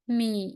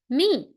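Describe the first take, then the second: First: The pitch dips low and then rises. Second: The pitch falls sharply from high to low. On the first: "Third tone" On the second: "Last tone"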